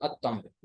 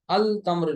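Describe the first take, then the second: First: अत तम्र lower, doubled t and no l; sun-letter assimilation. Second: अल तम्र with a clear l before the t; rejected sounded lam. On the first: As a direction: swallow the l into a held t in अत तम्र. (अत तम्र, लाम के बगैर शमसी तलफ़ुज़) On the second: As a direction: pronounce the l in अल तम्र. (अल तम्र, लाम की आवाज़ के साथ) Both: Shown as a demonstration. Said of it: "अल तम्र नहीं कहेंगे".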